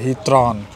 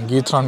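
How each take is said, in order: First: The word begins with an H sound. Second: The word begins with a hard G sound. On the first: The speaker calls it right. "హీత్రాన్ అంటది చూడండి pronunciation" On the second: The speaker calls it wrong. "నేను అప్పటి నుంచి గీత్రాన్ గీత్రాన్ అన్నాను"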